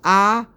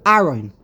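First: The h-syllable gets a full, drawn-out vowel. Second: The h-syllable is dropped entirely. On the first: "You're giving too much emphasis on too much of a patach for the ha" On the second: "they just skip the whole hay"

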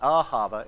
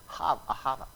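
First: The middle h sound is soft and light. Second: The middle h sound is harsh and throaty. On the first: The speaker calls it wrong. "It's not ahava" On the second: The speaker calls it right. "it's ahava, We don't do the ha here, do we? It's really hard"

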